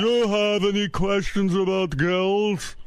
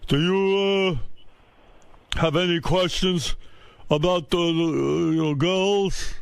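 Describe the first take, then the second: First: Put-on slow, high, over-articulated "Do you have any questions about girls"; over-enunciating. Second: Halting, higher dad voice with long pauses; over-enunciating father. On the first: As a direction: stretch each word of "questions about girls", carefully articulated. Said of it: "he tries to correct his accent by over-enunciating". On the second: Retold or imitated. Father attempts sex talk with son, halting over-enunciation. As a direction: fumble stiffly through it, stretching "girls". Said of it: "tries to correct his accent by over-enunciating".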